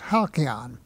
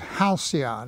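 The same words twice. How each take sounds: First: The word is pronounced the Greek way. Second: The word is pronounced the English way. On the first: This is how the Greeks call the birds. "those birds were known as halcyon" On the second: This is how English speakers say it. "we pronounce it halcyon"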